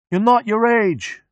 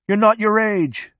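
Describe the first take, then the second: First: High, slow yell. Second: High, slow shout. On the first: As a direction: answer the chant with a yell. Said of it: "Mechanic yells". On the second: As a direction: chant it from the back seat. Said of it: "A space monkey shouts". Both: A narrator's reading.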